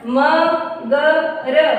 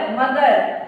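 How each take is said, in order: First: मगर slowly split into म, ग, र; sounded out. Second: Said in the usual way. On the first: Shown as a demonstration. Teacher showing children how to join मगर, letter by letter. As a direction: give each letter of मगर its own long beat. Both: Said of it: "इस तरह से जोड़ के पढ़ेंगे".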